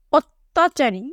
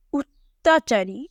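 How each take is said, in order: First: Said in the usual way. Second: "অত্যাচারী" drawn out slowly, syllable by syllable; slow model reading of "অত্যাচারী", rounded opening vowel; standard pronunciation. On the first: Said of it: "এই ডান কলামে এই শব্দের উচ্চারণ কেমন হবে". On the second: Shown as a demonstration. Teacher showing pupils how "অত্যাচারী" is pronounced, slow standard pronunciation. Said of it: "এই শব্দের উচ্চারণ কেমন হবে".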